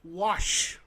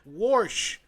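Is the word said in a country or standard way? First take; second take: standard; country. First: The word has a standard pronunciation. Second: The word has a country Southern pronunciation. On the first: "instead of wash" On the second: "My dad and my Alabama and, and, and country family would be like"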